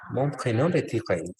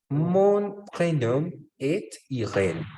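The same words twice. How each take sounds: First: Said in the usual way. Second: Very slow, higher-pitched French model; slow model sentence. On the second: Shown as a demonstration. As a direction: stretch the sentence out for learners. Teacher models sentence slowly, then repeats. (francés modelo, muy lento y más agudo)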